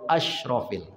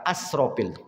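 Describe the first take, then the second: First: The middle consonant is a fuller 'sh' sound. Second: The middle consonant is a plain 's' sound. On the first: It means the most noble. The speaker calls it right. "Agak tebal sedikit bunyinya asyrafil" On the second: It means the most wasteful. The speaker calls it wrong. "bukan asrofil"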